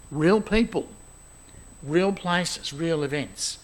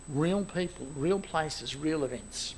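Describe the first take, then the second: First: Each "real" said firmly and clearly, the line carried at normal volume; emphatic listing. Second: "real people, real places, real events" softer, each "real" stressed gently and falling; quiet repeat. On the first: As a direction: proclaim "real people, real places, real events" with steady weight on every "real". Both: Shown as a demonstration.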